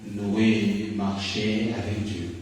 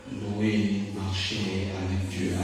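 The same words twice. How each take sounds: No difference in how they are said.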